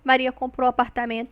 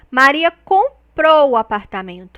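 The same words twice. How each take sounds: First: No word gets extra emphasis; the sentence is neutral. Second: The word comprou gets strong extra emphasis. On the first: It simply states what happened. "não tem nenhuma emoção ali" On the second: She bought it, as opposed to renting it. "essa marcação prosódica no comprou"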